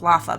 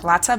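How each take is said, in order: First: The middle consonant is a th sound. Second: The middle consonant is a ts sound. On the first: The speaker calls it wrong. "I want it to be a th sound" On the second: The speaker calls it right. "they say it more kind of like Latza"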